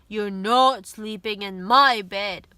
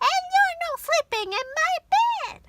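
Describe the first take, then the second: First: It is said in a deep, booming voice. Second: It is said in a high, squeaky voice.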